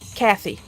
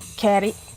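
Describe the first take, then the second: First: The middle consonant is a th sound. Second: The middle consonant is a plain t sound. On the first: The speaker calls it right. "it has an H" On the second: The speaker calls it wrong. "my brain is screaming at me to pronounce it Katie"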